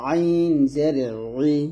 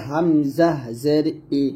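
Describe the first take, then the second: First: "আইন জের ই" with ই squeezed in mid-throat; ayn with zer. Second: "হামজা জের ই" spelled slowly, ই clean from throat's start; hamza with zer. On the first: Teacher contrasting ayn with hamza, "আইন জের ই" pressed mid-throat. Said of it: "আর এখানে হবে". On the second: Teacher showing hamza with zer, "হামজা জের ই" slow and unsqueezed. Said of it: "জের দিয়ে যদি আমি উচ্চারণ করি". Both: Shown as a demonstration.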